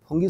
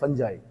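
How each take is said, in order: First: The word is said as 'foongee' with a hard g. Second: The word is said as 'funjai' with a j. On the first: This is the local Garhwali form of the word. "बोलते हैं कि फुंगी लग गई" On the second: This is the English scientific form of the word. "फंजाई English में जो word है"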